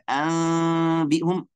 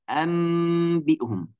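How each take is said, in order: First: The m is said with a gap between lips. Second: The m is a clear m with lips fully closed. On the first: "yang bilang pakai furjah, furjah itu spasi" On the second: "Tidak boleh dibaca huruf mim yang jelas dari makhraj mim"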